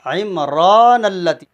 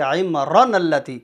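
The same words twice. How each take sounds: First: "عمران" with a very long, louder raa; slow recited "عمران اللتی", long middle vowel; stretched recitation. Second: "عمران" with its raa cut short; short-vowel "عمران اللتی" as a mistake; wrong unstretched reading. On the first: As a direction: draw out the aa of "عمران", then on into "اللتی". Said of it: "اس کو کھینچ کر پڑھیں گے". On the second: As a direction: run straight through "عمران اللتی" with no long aa. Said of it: "اس کو ایسا نہیں پڑھیں گے". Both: Shown as a demonstration.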